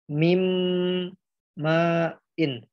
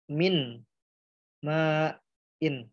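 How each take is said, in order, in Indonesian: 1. Bunyi n menyatu menjadi bunyi sengau m. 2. Kata pertama berakhir dengan bunyi n yang jelas. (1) "Jadi dibacanya" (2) "huruf asalnya adalah"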